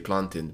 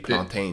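First: The word is said in the Caribbean way. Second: The word is said in the African way. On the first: "the Caribbeans would say plantain" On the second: "Africans say plantain"

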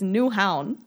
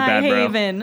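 First: The ending sounds like 'hown', rhyming with 'down'. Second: The ending is said like the English word 'haven'. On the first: The speaker calls it right. "No, it's Newhown" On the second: The speaker calls it wrong. "Bad, bro"

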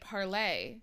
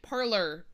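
First: The name ends with an 'ay' vowel sound. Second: The name ends with an 'er' sound. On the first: "they're not pronouncing it parlay" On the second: "They're pronouncing it parlor"

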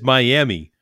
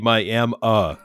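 First: The name ends with an 'ee' sound. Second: The name ends with an 'uh' sound. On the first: This is the name read as it is spelled. The speaker calls it wrong. "like if you read the word, it says Miami" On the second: This is how locals say the name. The speaker calls it right. "you best say Miami ... I shouldn't make an sound, but it does"

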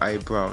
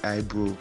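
First: The word is said in a standard accent. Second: The word is said in a Southern accent. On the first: The speaker calls it right. "That shit is called eyebrow" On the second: The speaker calls it wrong. "not eyebrow"

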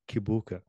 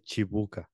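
First: The name begins with a k sound. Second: The name begins with a ch sound. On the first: This is how it is said in America. "people in America pronounce it Kibuka" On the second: This is how it is said in Uganda. "when I'm in Uganda, they say Chibuka. It's like a C-I or C-H-I"

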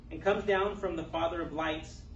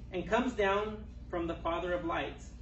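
Both takes have the same delivery.

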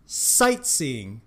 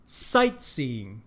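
First: The stress is on the first syllable. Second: The stress is on the first syllable.

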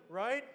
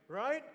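Both takes have the same delivery.

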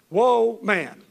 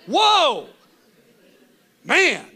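First: It is said flatly, without much excitement. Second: It is said with amazed excitement.

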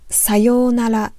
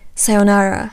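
First: It is said with a native Japanese pronunciation. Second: It is said with an English pronunciation.

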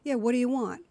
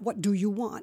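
First: It is said casually, in a relaxed way. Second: Every consonant is carefully and crisply sounded.

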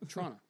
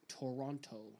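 First: The second t is dropped, like Toronno. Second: The second t is clearly sounded. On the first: The speaker calls it right. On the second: The speaker calls it wrong.

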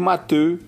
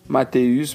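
First: The name ends without a final s sound. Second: The name ends with a final s sound.

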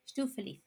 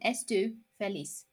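First: The first vowel is dropped almost completely. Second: The first vowel is pronounced fully. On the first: "it's said more like" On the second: "So it's written estu feliz"

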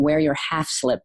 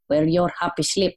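First: The phrase ends with a clear 'half slip'. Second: The phrase ends sounding like 'happy slip'. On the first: "my mom saying, wear your half slip" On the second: "the way she would pronounce it is HappySlip"

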